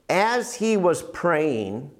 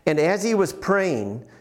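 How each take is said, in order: First: It is said slowly and deliberately. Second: It is read at a normal pace.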